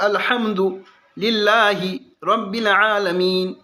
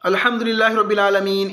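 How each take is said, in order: First: The words are separated with breaks between them. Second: The words run together without breaks. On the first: It does not count as a full recitation of the verse. The speaker calls it right. "काट काट के अलग अलग करके बोले" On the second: It counts as a full recitation of the verse. The speaker calls it wrong. "इस तरह ना पढ़ावे"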